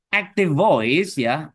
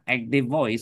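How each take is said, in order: First: "Active voice" said slowly and carefully, rising on "ya"; slow stressed term. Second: Said in the usual way. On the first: Shown as a demonstration. Teacher to class, introducing the term slowly and clearly. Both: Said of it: "Kita ngomongin active voice dulu".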